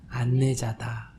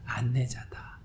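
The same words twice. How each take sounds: First: Slow. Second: Whisper. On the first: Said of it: "뭐라 그래요?". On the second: Monk repeats the key word to the audience in a whisper. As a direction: whisper the word 안내자다 softly with no voice. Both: Shown as a demonstration.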